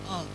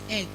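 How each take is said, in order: First: The vowel sounds like 'uh'. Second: The vowel sounds like 'eh'. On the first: The speaker calls it wrong. "you say ugh. There's nothing like ugh" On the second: The speaker calls it right. "Egg is egg. Pronounce the egg"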